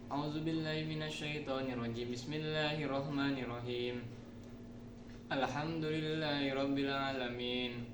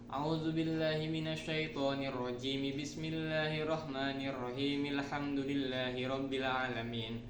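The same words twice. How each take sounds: First: There is a stop after each of the three parts. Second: All three parts run together without any stop. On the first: "ta'awuz basmalah dan surah diwakafkan" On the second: "ta'awuz basmalah dalam surat diwasolkan"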